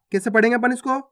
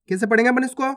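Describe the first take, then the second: No difference in how they are said.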